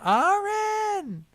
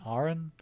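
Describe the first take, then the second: First: The name is shouted loudly from far away. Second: The name is said calmly at normal volume.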